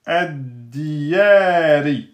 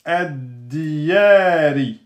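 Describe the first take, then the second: No difference in how they are said.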